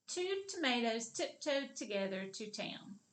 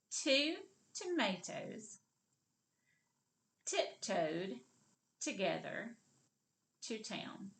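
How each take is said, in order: First: The whole sentence in one unbroken run; all put together. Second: "Two tomatoes", "tiptoed", "together", "to town" with pauses between; broken into pieces. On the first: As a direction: say it straight through without pauses. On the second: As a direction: model it piece by piece for repeating. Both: Shown as a demonstration. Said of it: "Now let's put it all together".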